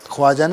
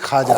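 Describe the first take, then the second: First: A w sound follows the first consonant. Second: No w sound follows the first consonant. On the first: The speaker calls it wrong. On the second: The speaker calls it right.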